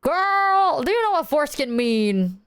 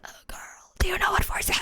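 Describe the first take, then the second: First: Said in the usual way. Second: Fast voiceless whisper; airy, whispered croak of a lost voice; voice gone. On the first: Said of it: "I didn't sound like that". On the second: Retold or imitated. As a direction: imitate having lost your voice, barely any sound. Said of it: "'Cause my voice was so gone".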